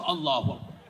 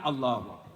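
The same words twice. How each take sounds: First: It is said with more energy and excitement. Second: It is said weakly, as if blown by wind.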